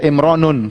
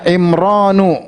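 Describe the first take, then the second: First: The word ends with an added n sound. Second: The word ends on a plain vowel. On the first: The speaker calls it wrong. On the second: The speaker calls it right.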